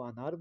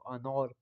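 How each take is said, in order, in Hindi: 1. दूसरा स्वर एक सादा खुला 'a' है। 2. दूसरा स्वर गोल है, 'o' की तरफ झुका हुआ। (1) "उर्दू में हम अनार को अनार बोलते हैं" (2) "फारसी लहजे के अंदर इस्तेमाल करेंगे तो अनौर पढ़ेंगे"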